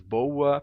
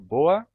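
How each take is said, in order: First: An extra U glide follows the O. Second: No U glide follows the O. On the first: "pronunciado com esse U" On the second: "eu pronuncio boa e pessoa sem esse U"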